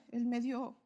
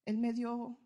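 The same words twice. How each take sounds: The two takes are said the same way.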